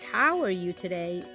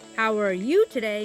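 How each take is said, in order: First: The stress falls on the word how. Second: The stress falls on the word you. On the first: The speaker genuinely cares about the listener's state. "I'm genuinely concerned at how are how how what are you feeling?" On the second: The speaker's concern is for this listener rather than others. "means I'm not dismissing, you know, I'm not concerned about any other individuals"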